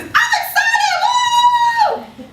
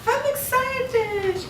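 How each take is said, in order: First: "I'm excited" much higher, louder and stretched out, then a cheer; truly excited. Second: "I'm excited" drawn out slowly and limply; flat unexcited. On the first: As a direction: burst with real excitement. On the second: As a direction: say it like you don't mean it. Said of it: "Have you ever heard someone say". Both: Shown as a demonstration.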